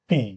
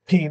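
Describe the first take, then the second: First: The P is a clean stop, air held. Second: The P is breathy, with air escaping. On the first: The speaker calls it right. "পি এর সময় বাতাস আটকে যাবে" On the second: The speaker calls it wrong. "পি না"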